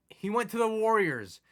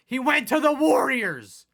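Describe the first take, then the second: First: High, stunned but held back; stunned repeat. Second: Much higher, louder, slower outburst; outraged yell. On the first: Gamer first reports star left, stunned. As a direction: say it once in disbelief. Repeats news, second louder. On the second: Gamer repeats the loss, now yelling. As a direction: shout it at the screen. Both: Real, not acted.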